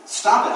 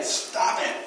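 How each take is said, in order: First: Louder, insistent stop; half-joking command to stop; firm stop. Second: Breathy whispered stop it; hushed teasing echo to the congregation; whispered aside. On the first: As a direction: put a bit of force on it. Moses refusing more gifts. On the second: Playful repeat to congregation. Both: Retold or imitated.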